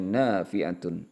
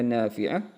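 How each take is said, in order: First: The word ends in a full -atun sound. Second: The word ends in a short -ah sound. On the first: "bisa dibaca nafi'atun" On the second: "Bisa dibaca nafi'ah"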